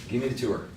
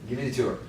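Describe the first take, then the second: Both takes have the same delivery.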